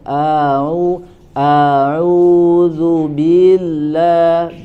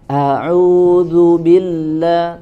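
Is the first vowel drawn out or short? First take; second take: drawn out; short. First: The first vowel is stretched out long. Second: The first vowel is kept short. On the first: The speaker calls it wrong. "tapi dibacaannya panjang" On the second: The speaker calls it right.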